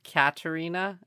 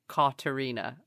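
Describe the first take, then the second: First: The first syllable sounds like 'cat'. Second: The first syllable sounds like 'caught'. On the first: "instead of Katerina" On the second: "Like to cauterize a wound? Yes"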